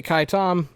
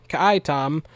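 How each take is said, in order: First: "Kai Tom" said KYE TOM; one-syllable Kai. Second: "Ka'ai Tom" said kuh-EYE TOM; two-syllable Ka'ai. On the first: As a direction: say "Kai" as a single syllable rhyming with eye. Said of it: "I feel like I should just say". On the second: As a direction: give "Ka'ai" two syllables, stressed on the second. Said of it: "so I'm gonna pronounce it". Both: Shown as a demonstration.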